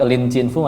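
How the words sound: The name is read with Mandarin pronunciation. "Kalau pakai Lin Chin Fu Mandarin"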